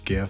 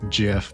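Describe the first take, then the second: First: It begins with a hard g sound. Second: It begins with a soft j sound. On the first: This is the speaker's own preferred pronunciation. The speaker calls it right. "It's GIF to me. ... You give them gifts" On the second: This is the creator's preferred pronunciation. The speaker calls it wrong. "the original creator said it's pronounced GIF"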